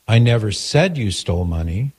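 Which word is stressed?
said. The stress is on the word said.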